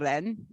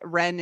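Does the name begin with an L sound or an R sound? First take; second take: L sound; R sound. First: The name begins with an L sound. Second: The name begins with an R sound.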